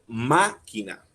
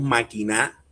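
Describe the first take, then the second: First: The stress is on the first syllable. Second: The stress is on a later syllable. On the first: The speaker calls it right. "la fuerza está en la primera A" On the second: The speaker calls it wrong. "Tampoco decimos máquina, mucho menos"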